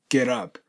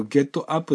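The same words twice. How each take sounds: First: Second "ゲットアップ" linked as geh-rap; American flapped "ゲットアップ"; soft D liaison. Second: "ゲットアップ" unlinked as ge-tto a-ppu; Japanese-syllable "ゲットアップ"; katakana English. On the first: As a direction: turn the T of "ゲットアップ" into a tapped soft D. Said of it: "ラに点々ですね". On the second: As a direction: say "ゲットアップ" with a plain hard T. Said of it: "このゲットアップだったらゲットアップ". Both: Shown as a demonstration.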